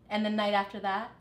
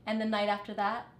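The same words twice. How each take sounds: The two takes are said the same way.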